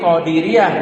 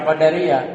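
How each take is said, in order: First: "Qadiriyah" with an i after the d; "di" as second syllable of "Qadiriyah"; corrective Qadiriyah. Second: "Qadariyah" with an a after the d; "da" as second syllable of "Qadariyah"; contrasting Qadariyah. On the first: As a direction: say "Qadiriyah" with a clear "di". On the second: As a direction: say "Qadariyah" with "da", falling at the end. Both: Shown as a demonstration. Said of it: "bukan Qadariyah".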